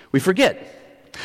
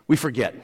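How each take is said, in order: First: "We forget." said slow and higher, rising; stress on forget. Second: Said in the usual way. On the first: Shown as a demonstration. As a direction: lean in hard on "We forget.".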